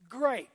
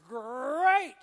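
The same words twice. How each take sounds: First: It is said in the speaker's ordinary voice. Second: It is said in a booming cartoon-tiger voice.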